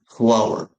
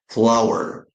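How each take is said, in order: First: The word rhymes with power. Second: The same.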